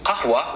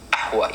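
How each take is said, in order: First: Said in the usual way. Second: Ahwa starting on the vowel, no q; dropped qaf. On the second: Shown as a demonstration. Teacher showing Levant coffee word, ahwa without q. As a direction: leave the q off, open ahwa on "a". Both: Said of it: "You just don't pronounce it".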